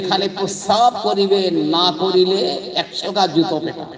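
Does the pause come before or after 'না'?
before. The pause comes before 'না'.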